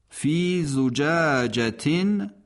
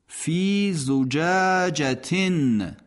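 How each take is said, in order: The two takes are said the same way.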